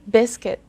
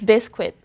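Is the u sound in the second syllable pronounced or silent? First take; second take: silent; pronounced. First: The u sound in the second syllable is silent. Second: The u sound in the second syllable is pronounced. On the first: "I omitted the letter U" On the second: "We say biscuit"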